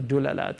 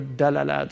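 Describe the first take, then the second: First: The first vowel is a u sound. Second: The first vowel is an a sound. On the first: "you can use all three" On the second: "Eastern Arabs tend to say Dalalat"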